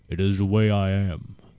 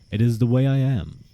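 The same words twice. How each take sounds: First: It is said in a put-on giant voice. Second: It is read in a plain voice.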